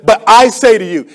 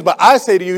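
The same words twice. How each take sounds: First: Authoritative voice. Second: Said in the usual way. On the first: Retold or imitated. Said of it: "Jesus spoke with such authority". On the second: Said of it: "when he says".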